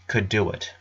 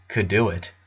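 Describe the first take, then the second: No difference in how they are said.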